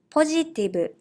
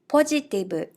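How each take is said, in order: First: It is said with Japanese katakana pronunciation. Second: The same.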